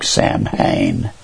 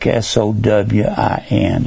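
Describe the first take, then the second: First: The word sounds like Sam-hane. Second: The word sounds like Sow-in. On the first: The speaker calls it wrong. "It looks like Samhain" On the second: The speaker calls it right. "it's actually it's pronounced like Sowin"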